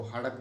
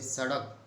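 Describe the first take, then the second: First: सड़क said as हड़क, s turned to h; breathy h in place of the opening s of हड़क; Marwari pronunciation. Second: Said in the usual way. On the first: Shown as a demonstration. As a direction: Rajasthani h for s in हड़क. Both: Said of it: "को हड़क बोलते हैं".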